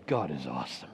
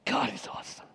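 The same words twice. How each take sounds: First: Low, soft awed murmur; hushed praise. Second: Breathless awed whisper; whispered praise. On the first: Preacher voicing a believer's quiet praise, hushed. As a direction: say it softly, in awe. Quoting worshipper's heartfelt praise. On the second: Preacher echoing the believer's praise, whispered. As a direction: let it fall to a whisper. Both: Pretend.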